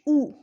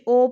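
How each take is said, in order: First: The vowel is a high 'oo' sound. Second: The vowel is a mid 'oh' sound. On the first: The speaker calls it right. "मारूफ तरीके से इनको अदा करना है" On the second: The speaker calls it wrong. "हमज़ा पेश ओ पढ़ते हैं, ये गलत है"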